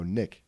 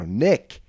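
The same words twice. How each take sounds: First: Said in the usual way. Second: Nick said louder and firmer, correcting her; louder correction. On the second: Acted. Correcting the bachelorette who misheard, Nick said louder. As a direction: repeat Nick louder so she hears it.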